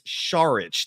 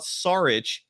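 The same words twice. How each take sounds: First: The name begins with an sh sound. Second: The name begins with a plain s sound. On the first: The speaker calls it right. "The S is actually pronounced like an S H" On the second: The speaker calls it wrong. "his last name is not Saric"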